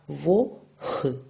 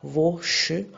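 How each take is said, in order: First: The ch is pronounced like a throaty 'r'. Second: The ch is pronounced like a soft 'sh'. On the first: The speaker calls it right. "comme si le C n'existait pas et il y avait juste le R" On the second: The speaker calls it wrong. "on ne dira pas vauche"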